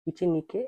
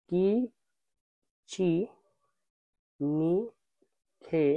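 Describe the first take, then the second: First: Said in the usual way. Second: কি, চি, নি, খে each apart; teacher spelling out the word; slow syllable drill. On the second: Shown as a demonstration. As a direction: sound out কিচিনিকে by syllable.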